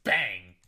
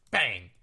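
First: A punchy spoken bang; short loud mock bang; sound effect bang. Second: Sound effect. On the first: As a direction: hit "Bang" like a gunshot. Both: Shown as a demonstration. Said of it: "Don't I make good sound effects?".

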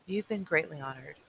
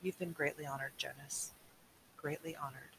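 First: Said in the usual way. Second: Quiet. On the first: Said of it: "his mother said". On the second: Acted.

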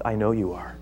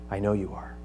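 First: Soft, low and certain; quiet assurance. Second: Much softer, low and intimate; near hush. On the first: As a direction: say it gently to the king. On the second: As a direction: drop almost to a murmur. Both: Acted. Paul appeals to Agrippa.

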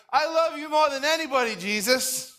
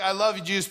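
First: High, gushing devotion; overzealous boasting. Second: Said in the usual way. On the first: Retold or imitated. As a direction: gush like an overeager new convert. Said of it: "like, overzealous". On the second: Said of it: "Peter wasn't just like".

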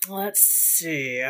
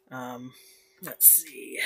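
First: Said in the usual way. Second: Soft unvoiced whisper; whispered to self. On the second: Real, not acted. Whispering to himself while searching for a topic, soft. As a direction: whisper it to yourself.

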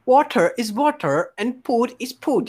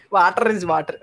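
First: Put-on Filipino-accented English. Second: Mock Bhojpuri-accented English. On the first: Repeating the mystery line for guessers, in a Filipino accent. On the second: Shown as a demonstration. Joking to friends about the slip, in a Bhojpuri accent.

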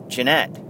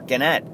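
First: Gennett with a soft G, like "jen-ETT"; soft-G pronunciation. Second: Gennett with a hard G, like "gen-ETT" in "get"; hard-G pronunciation. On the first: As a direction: say Gennett starting with a J sound. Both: Shown as a demonstration. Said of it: "I think I'm saying this".

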